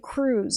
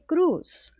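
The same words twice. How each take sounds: First: The name is pronounced the English way. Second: The name is pronounced the Spanish way. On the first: How most people say it. "People say Cruz" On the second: How the speaker says it. "I say Cruz"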